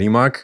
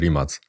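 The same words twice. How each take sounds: First: The name is said the widely used international way. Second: The name is said the native Croatian way. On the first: This is the commonly accepted pronunciation. "Jest powszechnie uznane, zaakceptowalne mówienie Rimac" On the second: This is how the name is read in Croatia. "w Chorwacji czyta się to nazwisko Rimac"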